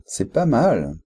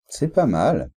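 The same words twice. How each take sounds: First: The tone sounds appreciative and positive. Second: The same.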